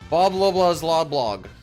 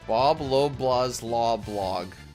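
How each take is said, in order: First: It is said very fast. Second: It is said at normal speed.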